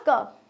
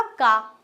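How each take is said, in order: First: क clipped short and quick, one beat; short ka sound. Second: का drawn out with a long aa vowel, two beats; long kaa sound. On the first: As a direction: say क as a brief single-beat syllable. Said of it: "थोड़ा सा बोला". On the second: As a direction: stretch का into a long open aa. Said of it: "बड़ी लगी". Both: Shown as a demonstration.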